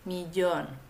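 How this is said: It is said with the widespread pronunciation.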